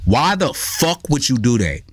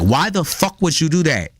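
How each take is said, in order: First: Slow mock scolding, no real shout; mock raised voice. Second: Higher-pitched mock scolding; talking as to a person. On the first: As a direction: drag out a half-hearted telling-off. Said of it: "and I raise my voice". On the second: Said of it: "talk to the motherfucker like a person".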